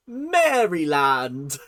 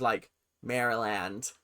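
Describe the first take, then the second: First: Maryland said slowly as Mary-land, like the land of the Marys; British reading. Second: Maryland said MEH-ree-land, slower; American take. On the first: Reading the state name, slow and amused as Mary land. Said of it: "I cannot say it in an American accent". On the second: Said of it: "pronounced as". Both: Shown as a demonstration.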